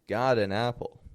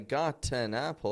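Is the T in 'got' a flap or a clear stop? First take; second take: flap; clear stop. First: The T is a flap linking the words. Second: The T is a clear stop, words kept apart. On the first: The speaker calls it right. "the flap T can connect words together" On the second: The speaker calls it wrong. "I wouldn't say"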